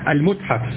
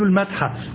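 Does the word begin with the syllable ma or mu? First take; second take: mu; ma. First: The word begins with the syllable mu. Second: The word begins with the syllable ma. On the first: The speaker calls it right. "الصواب المتحف" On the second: The speaker calls it wrong. "ونقول المتحف"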